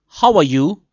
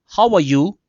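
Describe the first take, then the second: No difference in how they are said.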